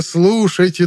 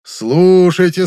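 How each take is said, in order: First: High call falling at the end; town crier. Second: High, very slow drawn-out call; town crier. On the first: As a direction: drop the repeated call down. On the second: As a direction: stretch the call out to the crowd. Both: A narrator's reading. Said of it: "глашатай, обязанный объявлять публике".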